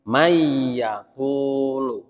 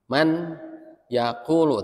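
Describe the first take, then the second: First: The n merges into a doubled y sound. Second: The n is pronounced clearly before the y. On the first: The speaker calls it right. "Tapi mayyaqulu" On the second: The speaker calls it wrong. "tante gitu"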